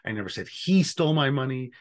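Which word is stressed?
he. The stress is on "he".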